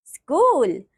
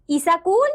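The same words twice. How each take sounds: First: Said in the usual way. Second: "ईसाकूल" in three syllables, "i-sa-kool"; wrong pronunciation. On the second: Shown as a demonstration. Teacher showing pupils the error, "ईसाकूल" for school. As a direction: add vowels round the s, "ईसाकूल". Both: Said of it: "अन्य अशुद्धियां कुछ".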